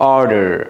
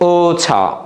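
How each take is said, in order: First: It is said in an American accent. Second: It is said in a British accent. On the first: "আমেরিকানরা বলে" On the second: "ব্রিটিশরা কি বলে?"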